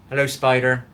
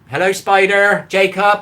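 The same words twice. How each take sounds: First: Said in the usual way. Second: Loud, higher fed-up hello; exasperated greeting. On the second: Real, not acted. Streamer greets the same viewer yet again, loud and fed up. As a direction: belt out the repeated greeting. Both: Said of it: "saying hello to the same people over and over".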